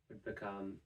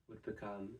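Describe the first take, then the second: No difference in how they are said.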